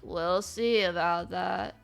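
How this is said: It is said in a sad, gloomy voice.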